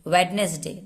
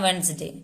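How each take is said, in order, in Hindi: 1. बीच का 'd' बोला जाता है: wed-nes-day। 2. बीच का 'd' साइलेंट है: wens-day। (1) "डी पूरा हम डी को पढ़ते हैं" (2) "हम बोल देते हैं वेंसडे"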